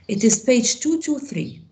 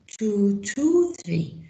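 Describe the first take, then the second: First: Said in the usual way. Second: Slow repeat. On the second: Shown as a demonstration.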